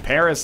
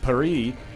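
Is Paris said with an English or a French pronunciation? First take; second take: English; French. First: It is said with an English pronunciation. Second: It is said with a French pronunciation. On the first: "we all say Paris" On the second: "instead of Paris"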